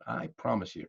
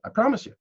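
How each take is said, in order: First: "promise" dropped soft and falling; softer promise. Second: "promise" lifted high with a rise; emphatic promise. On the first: To the audience, quietly repeating the promise with "promise" falling. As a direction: ease off and fall on "promise". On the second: To the audience, insisting the tip works on a high "promise". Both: Shown as a demonstration.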